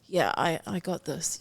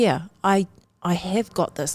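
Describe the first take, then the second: First: It is said flatly, without conviction. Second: It is said forcefully, with full conviction.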